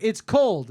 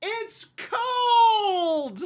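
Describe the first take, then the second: First: Short, louder customer grumble; retold complaint. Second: Very high, loud, drawn-out howl; mocking wail. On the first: Customer complaining about her wrap, mildly indignant. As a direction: imitate a put-out customer briefly. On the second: Worker parroting the customer's complaint, hammed-up wail. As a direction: wail it in exaggerated outrage.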